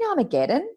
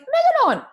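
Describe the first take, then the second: First: The full word is said: Armageddon. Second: The first syllable is dropped: megadon. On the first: The speaker calls it right. "do you mean Armageddon?" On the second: The speaker calls it wrong. "it was like she was speaking a different language"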